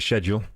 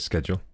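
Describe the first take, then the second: First: It begins with a sh sound. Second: It begins with a sk sound. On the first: The speaker calls it wrong. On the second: The speaker calls it right.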